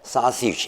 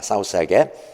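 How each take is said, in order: First: It is said as a two-syllable English word. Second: It is said as separate Korean-style syllables. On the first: The speaker calls it right. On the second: The speaker calls it wrong.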